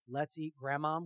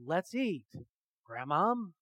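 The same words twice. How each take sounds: First: It runs on with no pause before Grandmom. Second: There is a pause before Grandmom.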